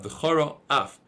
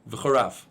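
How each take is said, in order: First: A short pause separates the two words. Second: The two words run together with no break. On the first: The speaker calls it right. "So you should make a stop" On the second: The speaker calls it wrong. "If you say it quickly, it sounds like V'charaf"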